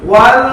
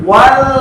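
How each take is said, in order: No difference in how they are said.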